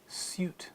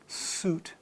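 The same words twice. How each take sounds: First: A y sound comes before the vowel. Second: No y sound comes before the vowel. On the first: "words in British ... you'll hear that U sound after the first consonant" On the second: "those words in American English are"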